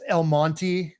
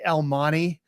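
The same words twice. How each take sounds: First: The T in Monte is clearly pronounced. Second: The T in Monte is dropped. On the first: This is the standard pronunciation. "I guess the proper pronunciation is El Monte" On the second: This is how locals say it. "a lot of folks down there we say El Monte. We we actually drop the T"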